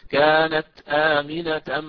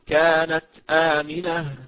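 First: The word ends in -atan, running on. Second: The word ends with an h sound. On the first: "إذا وصلت" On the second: "وحولها وقفا إلى هاء"

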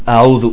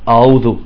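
The two takes are said the same way.

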